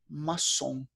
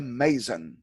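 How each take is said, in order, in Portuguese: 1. É pronunciada do jeito francês. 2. É pronunciada do jeito inglês. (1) "mas em francês a pronúncia é maçom" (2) "Em inglês a pronúncia é mason"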